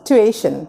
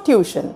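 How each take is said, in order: First: The word begins with 'too' followed by 'ay'. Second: The word begins with a 'tyoo' sound. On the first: The speaker calls it right. "It's টুয়েশন" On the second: The speaker calls it wrong. "It's not টিউশন"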